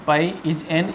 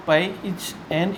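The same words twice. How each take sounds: The two takes are said the same way.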